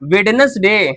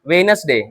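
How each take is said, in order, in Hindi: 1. पहली d ध्वनि उच्चारित होती है। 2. पहली d ध्वनि मौन है।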